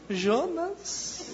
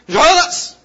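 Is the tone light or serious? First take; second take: light; serious. First: It is said in a light, casual tone. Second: It is said in a serious, stern tone.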